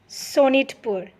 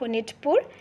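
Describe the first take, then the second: First: The name begins with an S sound. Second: The name begins with an H sound.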